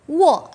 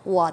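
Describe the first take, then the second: First: The pitch falls sharply from high to low. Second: The pitch dips low and then rises. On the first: "Wo là thành 4" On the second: "wo tờ là thành 3"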